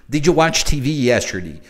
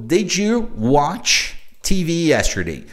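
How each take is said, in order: First: Said in the usual way. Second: Slow, word-by-word teacher reading; unhurried demo with spaces between words; slow model question. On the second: Shown as a demonstration. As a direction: spell out the question slowly for learners. Teacher models new question slowly.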